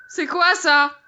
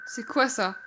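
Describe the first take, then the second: First: Higher, insistent repeat; insistent question. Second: Said in the usual way. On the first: Real, not acted. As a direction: demand to know, pitched up.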